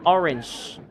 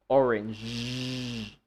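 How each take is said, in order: First: The final consonant is voiceless, without vibration. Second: The final consonant is voiced, with vibration. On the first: The speaker calls it wrong. "if you say orange, you're not using your voice" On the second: The speaker calls it right. "you should use your voice. Put some vibration here"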